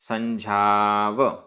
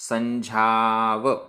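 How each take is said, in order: No difference in how they are said.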